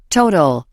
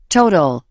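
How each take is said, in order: The two takes are said the same way.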